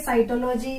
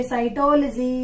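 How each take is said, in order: First: साइटोलॉजी as cyto-LOH-jee; mispronounced साइटोलॉजी. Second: साइटोलॉजी as sai-TOL-jee; corrected pronunciation. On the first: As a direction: keep लॉजी a separate unit in साइटोलॉजी. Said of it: "नहीं, इसको कहेंगे". (साइटोलॉजी को साइटो-लोजी तोड़कर) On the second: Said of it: "इसको कहेंगे साइटोलॉजी". (साइटोलॉजी को साइटोल-जी बोलकर) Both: Shown as a demonstration.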